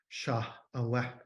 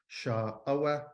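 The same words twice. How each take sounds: First: The vowel fades out with no tone. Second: The first syllable is said with a low tone. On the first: "There's no tone. It's got this, uh, right? This vowel sort of fades out" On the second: "you can tell by the awa that the preceding sha is low"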